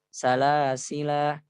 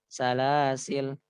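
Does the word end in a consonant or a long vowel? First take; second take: long vowel; consonant. First: The word ends with a long final vowel. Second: The word ends on a bare consonant. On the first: The final alif is kept when stopping. "bisa dibaca dengan salasila" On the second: The final alif is dropped when stopping. "ataupun salasil"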